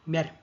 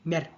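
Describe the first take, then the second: No difference in how they are said.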